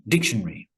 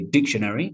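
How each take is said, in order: First: The ending 'ary' is reduced. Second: The ending 'ary' is fully pronounced. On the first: "but common dictionary" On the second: "People do say dictionary"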